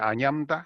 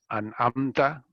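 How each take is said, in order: First: The middle consonant is an 'ny' sound. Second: The middle consonant is a throat catch sound. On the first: The speaker calls it wrong. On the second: The speaker calls it right.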